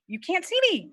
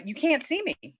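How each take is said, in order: First: Higher alarmed cry. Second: Alarmed high cry. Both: Acted. Bride hides from groom.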